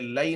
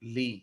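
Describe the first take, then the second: First: The word has two vowels, 'la' then 'ee'. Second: The word has one long 'ee' vowel. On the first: The speaker calls it wrong. "ये लई नहीं है" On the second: The speaker calls it right. "बल्कि ये है ली"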